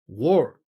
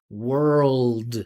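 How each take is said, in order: First: The word ends without the L and D sounds. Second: The word ends with voiced L and D sounds. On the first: The speaker calls it wrong. "he's not able to pronounce the dark L and D" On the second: The speaker calls it right. "he's got to continue his vibration"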